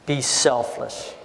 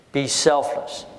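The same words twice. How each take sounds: First: Be selfless, slowly and low; slow emphatic advice. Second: Said in the usual way. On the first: Shown as a demonstration. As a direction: let each word land.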